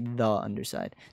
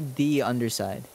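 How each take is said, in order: First: "The" is said with a short uh vowel. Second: "The" is said with a long ee vowel. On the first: The speaker calls it wrong. "You don't say the underside" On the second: The speaker calls it right. "there you say the underside"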